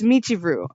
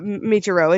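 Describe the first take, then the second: First: The name ends with an 'oo' sound. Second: The name ends with an 'oh' sound. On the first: The speaker calls it right. "it's Michiru" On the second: The speaker calls it wrong. "It's not Michiro"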